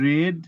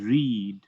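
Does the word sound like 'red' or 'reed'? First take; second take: red; reed. First: The vowel is short, like 'red'. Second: The vowel is long, like 'reed'. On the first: The action happened in the past. "Past টেন্সে রেড" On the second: The action happens in the present. "Present টেন্সের উচ্চারণ রিড"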